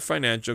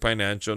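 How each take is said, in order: First: The word begins with an f sound. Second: The word begins with a p sound. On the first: It is the standard pronunciation. "not financial" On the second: It imitates a Filipino accent. "my wife is Filipino and from Waipahu, so I can say financial"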